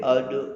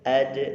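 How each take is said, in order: First: The sound is heavy, with the jaw rounded. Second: The sound is light, with the jaw spread. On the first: The speaker calls it wrong. "jangan sampai ad" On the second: The speaker calls it right. "ketika sukun harus tipis"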